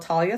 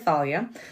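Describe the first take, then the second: First: The name begins with a plain T sound. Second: The name begins with a TH sound. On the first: "call her Talia" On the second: "I pronounce the T H"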